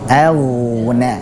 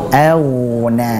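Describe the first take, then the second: Both takes have the same delivery.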